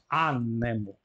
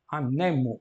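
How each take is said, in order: First: The stress is on the third-to-last syllable. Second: The stress is on the second-to-last syllable. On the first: The speaker calls it wrong. "e não anemo" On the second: The speaker calls it right. "o acento passou da antepenúltima para a penúltima"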